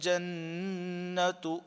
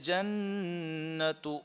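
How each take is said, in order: Both takes have the same delivery.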